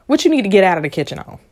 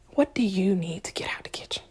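First: Said in the usual way. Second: Hushed unvoiced question; whispered. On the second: Shown as a demonstration. Asking listeners to step back, whispered. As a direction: drop to a whisper.

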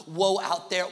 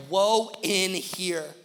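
First: "woe out there" with weight on out there, louder; woe pointed outward. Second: "woe in here" very slow, louder, weight on in here; stress on in here. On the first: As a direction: hit "out there" hard and wide. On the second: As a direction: press "in here" slowly inward. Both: Shown as a demonstration.

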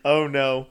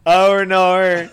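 First: Said in the usual way. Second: Loud, higher mock-Australian "oh naur"; hammed-up Australian accent. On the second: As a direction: belt it out in exaggerated Aussie. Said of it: "Do you know Australian people say".

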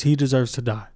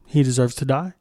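First: "he deserves to die." falls flat and final; falling statement. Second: "he deserves to die?" rises at the end in disbelief; rising question. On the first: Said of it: "At the hands of the police". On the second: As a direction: ask "he deserves to die?" with a rise. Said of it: "So now that we have the facts". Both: Shown as a demonstration.

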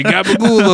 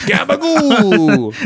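First: "Gabagool" tossed off higher in a quick mock Italian accent; quoted Gabagool. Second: "Gabagool" stretched out slow and much higher in a dopey Italian voice; dopey Uncle Vinny. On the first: Shown as a demonstration. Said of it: "You just say". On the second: Acted. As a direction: drag out "Gabagool" like a clueless uncle. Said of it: "a mentally handicapped Uncle Vinny".

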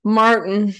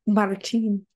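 First: Martin with a hard R and swallowed T; American Martin. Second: MARTIN with a rolled R and stress on the end; Spanish-style Martin, tapped R, long "ee" ending. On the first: Shown as a demonstration. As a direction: say Martin loud and blunt, American R, ending in "-tn". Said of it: "how we say it". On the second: Retold or imitated. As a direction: say Martin the Puerto Rican way, rolling the R. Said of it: "She has this beautiful roll".

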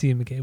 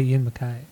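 First: [name] ending to rhyme with "day"; [name] as mac-KAY. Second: [name] ending to rhyme with "sky"; [name] as mac-KYE. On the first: Shown as a demonstration. Accepting co-host's version, [name] said muh-KAY. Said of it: "We'll stick with that". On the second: Retold or imitated. Reporting how other people say it, [name] as muh-KYE. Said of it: "I've heard people say".

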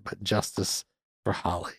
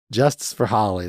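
First: Much softer, under the breath; a quiet muttered aside; hushed aside. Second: Said in the usual way. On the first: Shown as a demonstration. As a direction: say it half to yourself, very soft. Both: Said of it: "That's not my note yet".

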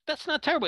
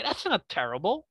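First: "That's not terrible." said again much higher, stress on "terrible"; emphatic repeat. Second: Said in the usual way. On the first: Real, not acted. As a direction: hammer the point home, lean on "terrible".

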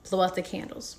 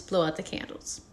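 First: Said in the usual way. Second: Whispered, air blown out; breathy exhale. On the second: Shown as a demonstration. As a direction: blow the words out on breath. Breath exercise demo.

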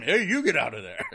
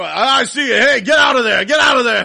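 First: Seal mimicking. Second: Excited playful shout, high and loud; hide-and-seek yell, breaking into laughter; George. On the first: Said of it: "the seal started looking at him". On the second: Retold or imitated. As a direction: shout as if catching someone hiding. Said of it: "and George would go".

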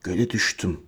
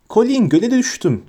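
First: Very low, hushed words; soft and low, almost soundless; mouthed silently. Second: Put-on high-pitched little boy's squeal; thin, high piping voice; shrill voice. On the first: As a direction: barely voice it, as if only mouthing. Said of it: "çıkarmadan dudaklarıyla". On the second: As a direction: pipe it up high to your brother. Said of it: "dedi tiz bir sesle". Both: A narrator's reading.

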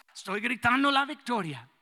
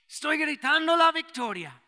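First: Said in the usual way. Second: Estoy gritando la victoria, higher and louder like a triumphant shout; the old pastor shouting his answer; shouting the victory. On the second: Retold or imitated. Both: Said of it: "Y sí puede gritar".

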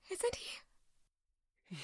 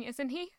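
First: Soft unvoiced whisper. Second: Said in the usual way. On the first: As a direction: breathe it out in a whisper. Repeated line whispered.

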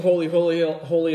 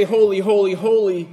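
First: Said in the usual way. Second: Louder, raised, ringing holy, holy, holy; proclaimed angel praise. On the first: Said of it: "And they sing". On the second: Retold or imitated. Preacher echoing the angels' cry to the throne, proclaimed loud. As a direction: call it out like the angels' song. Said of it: "when they say".

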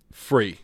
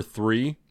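First: Three said as "free", with an F up front. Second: Said in the usual way. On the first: Retold or imitated. Retelling a New Zealander saying three, "free" with F for TH. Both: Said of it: "he was saying, like, the number three".

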